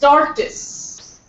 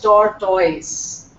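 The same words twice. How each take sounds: First: The ending sounds like 'tis'. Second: The ending sounds like 'toys'. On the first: The speaker calls it right. "this O is unnecessary in that" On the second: The speaker calls it wrong. "Not tortoise"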